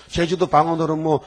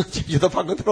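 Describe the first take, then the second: First: Said in the usual way. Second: 제주도 방언으로 asked through a laugh, rising at the end; laughing question. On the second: Real, not acted. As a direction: scoff at the idea with a chuckle. (웃으며 되묻는 말투)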